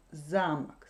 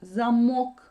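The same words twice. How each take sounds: First: "замок" accented on "за"; "замок" with the weight on its first vowel; stress on first syllable. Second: "замок" with a loud, accented "мок"; "замок", light start and strong stressed ending; stress on second syllable. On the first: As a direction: stress the opening syllable of "замок", falling away after it. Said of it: "l'accent tombe sur la première syllabe". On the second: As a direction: punch the final syllable of "замок". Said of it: "l'accent tombe sur la deuxième syllabe". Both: Shown as a demonstration.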